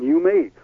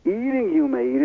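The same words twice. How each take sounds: First: Said in the usual way. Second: Eating lifted much higher, then you may eat; high punch on Eating before you may eat; stress on Eating. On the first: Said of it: "God should have simply said". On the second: Shown as a demonstration. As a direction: lean hard on the word Eating. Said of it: "is an emphasis".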